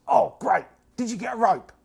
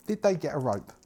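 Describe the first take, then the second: First: High, loud hopeful question; cultist voice. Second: Said in the usual way. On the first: Acted. Cultist asks the party about a rope, high and eager. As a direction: perk up and ask eagerly. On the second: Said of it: "narrator repeats question".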